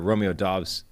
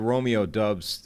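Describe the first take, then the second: First: The surname's vowel sounds like the one in 'cot'. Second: The surname's vowel sounds like the one in 'cup'. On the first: The speaker calls it right. "we're going to make an official pivot to Dobbs" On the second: The speaker calls it wrong. "Some people started off at Dubs"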